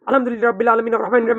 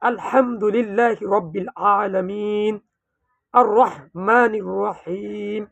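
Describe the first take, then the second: First: It is recited very quickly, without drawn-out sounds. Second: It is recited slowly, with long drawn-out nasal sounds. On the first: The speaker calls it wrong. "দ্রুতভাবে যে আমরা যে কোরআন তেলাওয়াত করছি" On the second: The speaker calls it right. "গুন্না টান মত লাহান কত সুন্দর।"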